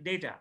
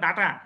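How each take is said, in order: First: The first vowel sounds like 'ay'. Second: The first vowel sounds like 'ah'. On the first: The speaker calls it right. "ডাটাটা হয় ডেটা" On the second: The speaker calls it wrong. "আমরা বললাম ডাটা"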